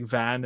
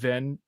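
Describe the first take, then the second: First: The vowel is open, as in 'father'. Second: The vowel is short, as in 'bit'. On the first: The speaker calls it right. "it's really supposed to be" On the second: The speaker calls it wrong. "I always said"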